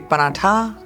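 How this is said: It is said with a UP-style pronunciation. "in U P, you say"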